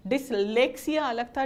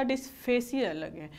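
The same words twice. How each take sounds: First: "Dyslexia" stretched slowly, the "lex" syllable loud; stress on LEX. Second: "dysphasia" drawn out slowly, leaning on "pha"; stress on PHA. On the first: Teacher contrasting two similar terms for students, stressing "lex" in "Dyslexia". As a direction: lean hard on "lex" in "Dyslexia". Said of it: "उसमें लेले था". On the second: Teacher contrasting two similar terms for students, stressing "pha" in "dysphasia". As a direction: pick out the "face" sound in "dysphasia". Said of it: "इसमें फेस है". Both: Shown as a demonstration.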